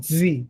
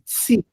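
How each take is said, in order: First: The t is followed by a buzzing z sound. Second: The t is followed by a hissing s sound. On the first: The speaker calls it wrong. "como se fosse um, um T e um Z. Fica assim" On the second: The speaker calls it right. "O som do Tsadi é um T e S"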